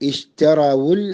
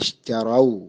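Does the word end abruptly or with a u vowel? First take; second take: u vowel; abruptly. First: The word ends with a u vowel, linked onward. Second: The word ends abruptly with no final vowel. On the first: The reciter joins it to the next word. "ചേർത്ത് വായിക്കുകയാണെങ്കിൽ റാഇന് ദമ്മ് കൊടുക്കണം" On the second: The reciter stops on this word. "സുക്കൂന് കൊണ്ടാണ് നിർത്തേണ്ടത്"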